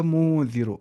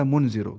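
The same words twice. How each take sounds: First: "مو" drawn out, noon hidden in the nose; nasal ikhfa. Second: Said in the usual way. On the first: Shown as a demonstration. Teacher asks why it is read hidden, nasal ikhfa. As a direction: hum through "مو" into "ذی رو". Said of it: "اسے ناک میں چھپانا ہے". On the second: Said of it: "میں نے کیوں نہیں پڑھا".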